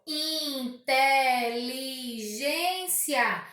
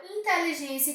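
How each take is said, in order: First: INTELIGÊNCIA lentíssimo, IN-TE-LI-GÊN-CIA; separado em sílabas. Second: Said in the usual way. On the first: Shown as a demonstration. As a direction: diga "Inteligência" em cinco sílabas esticadas. (silabado devagar, IN... TE... LI... GÊN... CIA) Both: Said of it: "que possui cinco sílabas".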